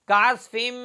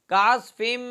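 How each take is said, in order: No difference in how they are said.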